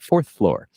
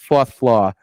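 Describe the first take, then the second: First: The R sounds are clearly pronounced. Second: The R sounds are dropped. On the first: The speaker is at an upscale store. "they would enunciate the R very meticulously" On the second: The speaker is seen as lower class. "their natural pronunciation of it was fourth floor"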